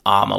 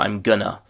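First: The whole phrase collapses into two short syllables. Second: Going to blends into a reduced gonna. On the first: "which is really the most reduced way of saying that you could possibly still be understood" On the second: "we're getting into chewing gum territory here"

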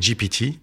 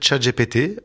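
First: The letters are spoken with English letter names. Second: The letters are spoken with French letter names. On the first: "si on le prononce à l'anglais, c'est GPT" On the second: "je continue de dire ChatGPT"

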